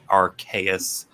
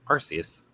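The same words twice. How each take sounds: First: The C is said as a K sound. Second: The C is said as an S sound. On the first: The speaker calls it right. "pronounced it right. ... it's Arcane and Deus" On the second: The speaker calls it wrong. "my stupid English brain just sees the the E after a C and immediately goes"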